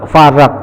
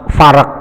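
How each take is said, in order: No difference in how they are said.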